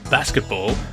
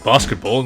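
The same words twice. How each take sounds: First: The word is said with an American accent. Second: The word is said with an Australian accent. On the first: "rather than basketball" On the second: "by my accent and the fact I'm saying basketball"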